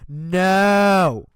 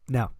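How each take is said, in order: First: It is said loudly. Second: It is said at normal volume.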